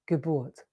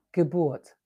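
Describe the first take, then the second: No difference in how they are said.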